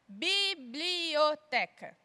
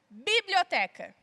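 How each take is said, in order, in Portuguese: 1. A palavra é dita devagar e com calma. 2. A palavra é dita em ritmo normal.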